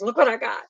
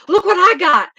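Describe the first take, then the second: First: Said in the usual way. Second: Put-on high, loud, gleeful kid voice springing a surprise; teasing little brother. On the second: Little brother thrusting a snake at mother, high gleeful shout. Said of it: "He goes".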